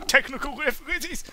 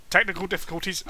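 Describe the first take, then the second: First: "Technical difficulties." with "difficulties" jumping way up high; high squeak. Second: Said in the usual way. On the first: Shown as a demonstration. Streamer mocks a glitch, squeaking "difficulties" up high.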